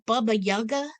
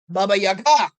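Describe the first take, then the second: First: The stress is not on the last syllable. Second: The stress is on the last syllable.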